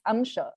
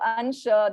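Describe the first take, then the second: First: The nasal before the sh is an m sound. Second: The nasal before the sh is an n sound. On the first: This is the Sanskrit pronunciation. "Sanskrit's rules are this, right? It's Amsha" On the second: This is the Hindi pronunciation. "So in Hindi, they say Ansha"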